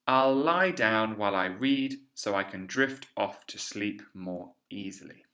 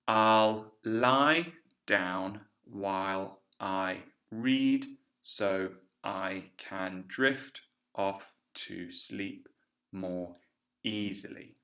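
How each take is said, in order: First: The sentence is read quickly. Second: The sentence is read slowly. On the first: "now I'll read it all together quickly" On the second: "We'll do it slowly"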